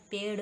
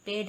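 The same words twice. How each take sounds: First: पेड़ with flapped ṛ ending; correct pronunciation. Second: पेड़ with hard aspirated ending, pedh; wrong pronunciation. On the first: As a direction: flick the last sound of पेड़, no puff. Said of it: "होता है". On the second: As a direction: harden the end of पेड़ to dh. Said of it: "नहीं होता". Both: Shown as a demonstration.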